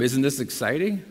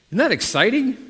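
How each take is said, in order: First: Said in the usual way. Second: Higher and louder, cheering the crowd on; excited prompt. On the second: Shown as a demonstration. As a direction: fire them up with the question. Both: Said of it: "we'll try that one more time".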